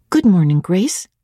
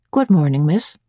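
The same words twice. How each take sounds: First: Said in the usual way. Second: Understated, unemotional short greeting; phlegmatic and brief. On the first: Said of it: "I said". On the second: A narrator's reading. Servant greets the young miss while sewing, phlegmatic and brief. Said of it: "in her usual phlegmatic and brief manner".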